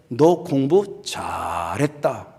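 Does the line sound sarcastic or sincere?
sarcastic. It is said sarcastically, with a word drawn out.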